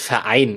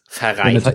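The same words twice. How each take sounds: First: The R sound is left out of the word. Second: The R sound is clearly pronounced in the word. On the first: "die sagen, das heißt Verein" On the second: "wenn da ein R ist, dann spreche ich das aus"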